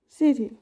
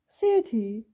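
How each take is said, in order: First: The voice falls from mid pitch to low. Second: The voice falls from high pitch to low. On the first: The word sounds calm and neutral. "The low falling tone starts in the middle of the voice range and goes down" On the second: The word sounds interested and involved. "the voice falls from a high to a low pitch"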